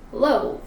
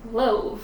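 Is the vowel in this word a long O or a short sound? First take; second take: long O; long O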